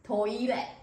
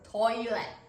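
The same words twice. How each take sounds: First: It is said slowly with three syllables. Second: The same.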